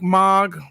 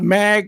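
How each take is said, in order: First: The vowel sounds like the 'o' in 'log'. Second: The vowel sounds like the 'a' in 'bag'. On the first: The speaker calls it right. "pronounced Mog" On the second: The speaker calls it wrong. "I Mag"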